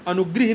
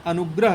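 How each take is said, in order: First: अनुग्रह said as "anugrih"; wrong form. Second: अनुग्रह with open "grah"; correct form. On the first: Teacher rejects the misspelling, अनुग्रह as "anugrih". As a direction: put an i after gr in अनुग्रह. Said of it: "नहीं होता है". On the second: Teacher gives the right spelling, अनुग्रह as "anugrah". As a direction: put an a after gr in अनुग्रह. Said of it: "होता है". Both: Shown as a demonstration.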